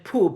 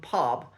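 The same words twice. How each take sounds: First: It is said with a Nottingham accent. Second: It is said with a southern standard accent. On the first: "I particularly struggle with the schwa sound sometimes" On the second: "rather than"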